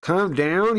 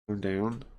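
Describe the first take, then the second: First: High, loud, incredulous shout; getting louder. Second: Calm voice. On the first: Angry man answering a calm plea, loud and high. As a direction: throw it back louder, as an outraged question. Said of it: "He got louder". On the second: Kamo Izumi trying to soothe an angry man, calmly. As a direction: say it calmly, without pushing. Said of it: "Kamo Izumi's calm voice". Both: Acted.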